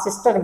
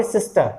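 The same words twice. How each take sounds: First: सिस्टर with an audible final R; R sounded at end. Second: सिस्टर ending on a schwa, without any R; silent final R. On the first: Teacher shows the learners' mistake, सिस्टर with R sounded. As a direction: pronounce the R closing सिस्टर. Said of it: "नहीं, सिस्टर pronounce नहीं करना". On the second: Teacher corrects learners, सिस्टर with silent final R. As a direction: leave the R off सिस्टर. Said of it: "इसको आप करेंगे सिस्टर". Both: Shown as a demonstration.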